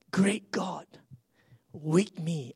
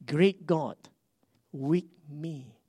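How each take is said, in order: First: "Great God, with me" breathed as a whisper. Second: Said in the usual way. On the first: Shown as a demonstration. Pastor praying to himself in a whisper, "Great God" whispered. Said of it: "whispered repeat". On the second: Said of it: "repeated quietly".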